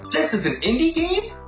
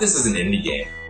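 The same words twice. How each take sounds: First: It sounds surprised and impressed. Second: It sounds dismissive and resigned. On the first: The game is far better than expected. "you expect an indie game and you're surprised" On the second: The game's flaws are excused as expected. "just kind of brushing them off"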